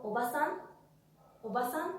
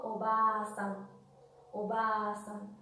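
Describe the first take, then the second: First: "oba-san" with short A, rising on "san"; sin alargamiento. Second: "oba-san" slow, with a long A: obaaa-san; a alargada. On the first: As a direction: keep "oba-san" quick, no held vowel. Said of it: "no hay ningún tipo de alargamiento". ("oba-san" con a corta, sílaba final tónica) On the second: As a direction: stretch the middle A of "oba-san". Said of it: "Hay un sonido alargado de la A". ("oba-san" lento, con la a alargada) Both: Shown as a demonstration.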